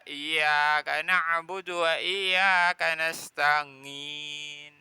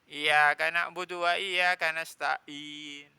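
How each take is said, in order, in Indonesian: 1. 'Ain' berubah menjadi bunyi sengau 'ng'. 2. 'Ain' berubah menjadi hamzah biasa. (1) "A jadi ngi" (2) "Alif ini, ya. Ini kan alif hamzah, bukan ain"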